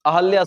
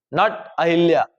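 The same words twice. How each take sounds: First: अहल्या with no i after ह; teacher giving the right अहल्या; correct form. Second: अहिल्या with an i sound after ह; teacher naming the mistake अहिल्या; wrong form. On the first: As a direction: say अहल्या cleanly, ah-hal-ya. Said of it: "अहल्या सही शब्द है". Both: Shown as a demonstration.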